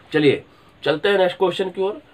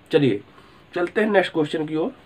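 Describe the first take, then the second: No difference in how they are said.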